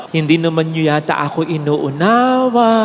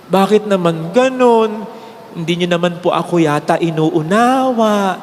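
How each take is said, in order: First: Sad, hurt tone. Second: Slow, lower and hurt, gently pleading; sad, hurt tone. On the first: Priest repeating his words to the crowd, hurt. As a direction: sound let down, not angry. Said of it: "Ganun ang tono". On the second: Priest to the crowd, mildly hurt and pleading. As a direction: say it like a tired priest let down by his flock. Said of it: "With that tone, ganun ang tono". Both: Retold or imitated.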